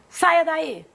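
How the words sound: It is said in a firm, commanding tone. It is an order. "é uma ordem"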